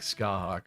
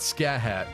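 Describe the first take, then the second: First: The name is said as ska-hawk. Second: The name is said as scat-hat. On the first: The speaker calls it right. "It's it's like Skahawk or something" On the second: The speaker calls it wrong. "It's not Scat Hat"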